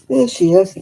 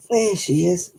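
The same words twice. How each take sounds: First: Loud greeting. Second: Said in the usual way. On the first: Real, not acted. Greeting pet loudly.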